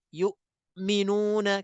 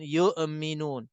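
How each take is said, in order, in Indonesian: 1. Hamzah berhenti singkat seperti kehabisan napas. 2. Hamzah memantul dengan sedikit gema saat dilepas. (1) "dia boleh terberhenti sakta" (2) "kadang-kadang dia boleh berlakunya qalqalah"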